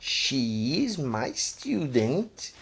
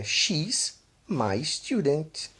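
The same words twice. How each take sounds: First: Very slow "She is my student", IS kept full; emphatic long form. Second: "she's" as one syllable, slowly demonstrated; contracted form. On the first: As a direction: stress "is" as its own word, drawn out. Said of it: "quando eu quero dar um ênfase". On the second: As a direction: merge "she's" into one word, slow teaching pace. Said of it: "eu uso a forma contraída". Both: Shown as a demonstration.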